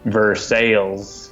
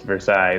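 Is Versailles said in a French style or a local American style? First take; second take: local American; French style. First: It is said with a local American pronunciation. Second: It is said with a French-style pronunciation. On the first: This is how the town's residents say it. "it's in Missouri or something, and it's Versailles" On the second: This is the original French pronunciation of the name. "if you pronounce it properly"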